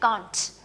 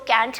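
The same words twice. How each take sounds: First: It is said with a British accent. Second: It is said with an American accent.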